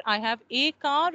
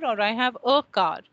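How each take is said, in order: First: "a" said as a full "ay" before car. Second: "a" reduced to a weak "uh" before car; a as schwa. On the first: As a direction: stress the article as "ay", I have AY car. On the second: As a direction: swallow the article, I have uh car. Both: Shown as a demonstration. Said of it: "is it a or is it a?".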